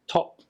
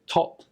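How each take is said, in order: Both takes have the same delivery.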